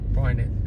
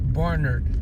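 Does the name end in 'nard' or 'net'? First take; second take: net; nard. First: The name ends with a 'net' sound. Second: The name ends with a 'nard' sound.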